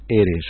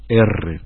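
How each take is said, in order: First: The R is a single short tap. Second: The R is a long rolled trill. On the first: The speaker calls it right. "Existe el sonido R solamente" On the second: The speaker calls it wrong. "que la R al principio la pronunciamos R"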